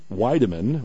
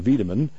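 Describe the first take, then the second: First: The name is pronounced the plain English way. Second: The name is pronounced the German way.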